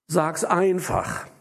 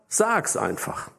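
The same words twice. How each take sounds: First: The stress is on einfach. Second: The stress is on Sag's.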